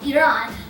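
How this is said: It is said in the native-style pronunciation. The speaker calls it right. "the pronunciation of Iran is, well, Iran"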